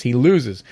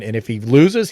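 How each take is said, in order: First: "loses" dropped in a flat, final fall; falling close. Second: "loses" lifted in a rising, open tune; rising setup. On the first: To his viewers about Trump, a shrugging final fall. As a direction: land "loses" down and done. Answering his own setup. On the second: To his viewers about Trump, a rising questioning setup. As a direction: let "loses" hang up in the air. Setting up a rhetorical contrast. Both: Acted.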